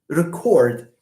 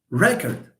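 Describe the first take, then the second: First: The stress is on the second syllable. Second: The stress is on the first syllable. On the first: It is used as a verb. "this re is pronounced in a light way" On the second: It is used as a noun. "First syllable stressed. Like this"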